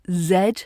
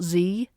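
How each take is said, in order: First: The letter name is said the British way. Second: The letter name is said a non-British way. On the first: The speaker calls it right. "It's Z" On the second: The speaker calls it wrong. "not Z"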